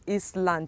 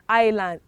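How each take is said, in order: First: The first vowel is not the letter name 'I'. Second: The first vowel sounds like the letter name 'I'. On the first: The speaker calls it wrong. "It is not Eastland" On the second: The speaker calls it right. "this also carries its name"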